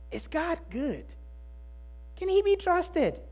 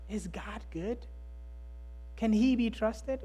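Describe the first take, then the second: First: Higher, pressing "Is God good? Can he be trusted?" with stress on "good" and "he"; urgent question. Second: Hushed question. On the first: Pastor pressing the congregation with the raised, urgent question. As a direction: ask it like it truly matters. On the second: Pastor repeating the question softly as if in a hospital room. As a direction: let it drop to a private, quiet plea. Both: Shown as a demonstration.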